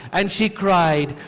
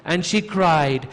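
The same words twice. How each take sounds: The two takes are said the same way.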